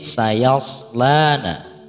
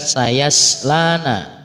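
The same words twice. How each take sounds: First: The middle s is a heavy, emphatic s. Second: The middle s is a plain, light s. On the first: The speaker calls it right. "ada huruf so, bukan huruf sin" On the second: The speaker calls it wrong. "Bukan sayaslana"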